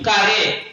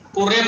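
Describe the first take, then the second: First: The first vowel is a long 'a'. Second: The first vowel is a short 'u'. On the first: The speaker calls it right. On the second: The speaker calls it wrong.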